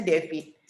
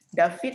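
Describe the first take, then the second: First: David said "DEH-fit", with an e in the first syllable; English pronunciation. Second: David said "DAH-fit", with an open a; Indonesian pronunciation. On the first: Teacher giving the English form of the name, David as "DEH-fit". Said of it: "kan Inggrisnya David". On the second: Teacher contrasting the name with its English form, David as "DAH-fit". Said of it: "David kan Inggrisnya David". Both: Shown as a demonstration.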